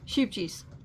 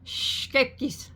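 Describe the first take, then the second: First: It is said with a plain American pronunciation. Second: It is attempted with a Dutch-style pronunciation. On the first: "here we say sheepjes, even though I know that's not right" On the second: "I don't have the accent. I can't say it"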